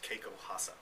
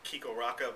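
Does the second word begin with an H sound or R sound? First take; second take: H sound; R sound. First: The second word begins with an H sound. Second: The second word begins with a hard R sound. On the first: The speaker calls it right. "the actual uh, Brazilian or Portuguese pronunciation" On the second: The speaker calls it wrong. "most people think it's"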